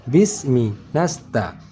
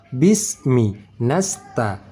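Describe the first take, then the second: Both takes have the same delivery.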